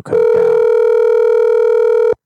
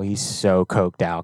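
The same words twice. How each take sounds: First: Slow breathy drawl. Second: Said in the usual way. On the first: Pretend. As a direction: draw every word out very slowly on breath. Repeats the line, second take stretched.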